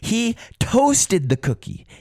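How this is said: The stress falls on the word toasted. Toasting is what happened to it. "what happened to the cookie? ... Yes, he toasted it"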